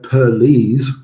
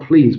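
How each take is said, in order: First: The word is broken into two syllables. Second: The word is said as one syllable. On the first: "but please into two, ... syllables" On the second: "not please"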